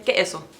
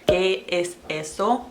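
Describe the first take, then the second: First: The word es is skipped entirely. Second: The word es is clearly pronounced. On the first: "a Nicaraguan would say" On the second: "from Spanish school, I learned to say"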